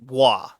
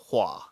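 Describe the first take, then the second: First: The h is nearly silent, gliding into wa. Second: The h is clearly sounded, followed by oo-a. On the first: The speaker calls it right. "the H is more or less silent in Korean, and it's an H W instead of an H U. So it's hua" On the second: The speaker calls it wrong. "not the hua"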